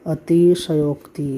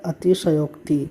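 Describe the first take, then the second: Both takes have the same delivery.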